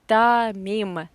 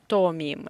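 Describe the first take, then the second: First: The first vowel is reduced to an 'a' sound. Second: The first vowel is a full 'o' sound. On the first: The speaker calls it right. "we pronounce this poor or as a" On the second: The speaker calls it wrong. "not томим"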